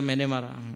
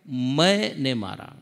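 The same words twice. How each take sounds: First: The words run together without a break. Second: 'Main' is set apart from 'ne' by a break. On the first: I myself killed him. "एक तो सीधा मैंने मारा" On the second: His own ego killed him. "मैं को inverted comma में कर दीजिए और ने को अलग कर दीजिए"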